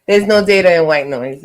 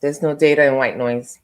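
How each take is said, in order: First: Laughing. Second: Talking around a mint; words blurred by a mint in the mouth; mouth full. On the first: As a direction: clear repeat through a chuckle. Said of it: "I'm sorry, I had a mint in my mouth". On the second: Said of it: "I had a mint in my mouth". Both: Real, not acted.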